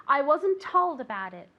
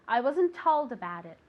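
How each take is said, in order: The two takes are said the same way.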